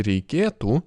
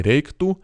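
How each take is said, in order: First: Reikėtų with the e sounded; full form with e. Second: Reiktų without the middle e; shortened, e dropped. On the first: Teacher showing learners the full verb, reikėtų with its e. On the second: Teacher showing spoken Lithuanian, reiktų with the e dropped. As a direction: drop the e, run k into t in reiktų. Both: Shown as a demonstration. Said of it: "we often don't say the e".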